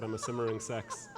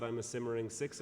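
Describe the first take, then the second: First: "sex" said with a short e vowel instead of "six", with a laugh; misheard as sex. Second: Said in the usual way. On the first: Retold or imitated. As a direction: say "simmering sex" so it sounds like a slip of "six". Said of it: "it sounded like he said". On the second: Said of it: "and he said".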